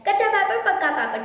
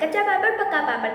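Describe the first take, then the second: No difference in how they are said.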